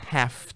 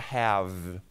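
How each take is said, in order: First: The word ends with a voiceless F sound. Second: The word ends with a voiced V sound. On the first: It expresses obligation. "Pronúncia de F" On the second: It expresses possession. "esse have tem a pronúncia do V"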